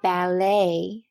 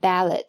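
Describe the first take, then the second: First: The final t is silent. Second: The final t is sounded. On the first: The speaker calls it right. "重音在后边，并且最后的t 是不发音的" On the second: The speaker calls it wrong. "千万不要一激动就读成了ballet"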